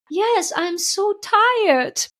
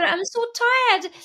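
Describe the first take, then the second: First: Slow, high, drawn-out tired plea; weary fear voice. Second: High, slow, small tired voice; weary fear voice. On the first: The fear confessing its exhaustion to her, slow and high. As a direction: let the exhausted fear sigh it out, much higher. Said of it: "the fear said that the aspect of her". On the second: The fear admitting it is tired, high and slow. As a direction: voice the fear as a worn-out little one, much higher. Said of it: "when the fear said". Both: Retold or imitated.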